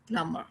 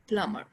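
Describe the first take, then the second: First: The b sound is silent. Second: The b sound is silent.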